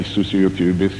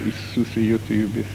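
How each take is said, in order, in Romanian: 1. Se spune repede, pe un ton monoton. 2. Se spune rar, cu un ton sincer. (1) "Asta l-ar fi plictisit" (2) "De fiecare dată spuneam pe un alt ton"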